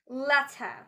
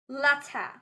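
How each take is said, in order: Both takes have the same delivery.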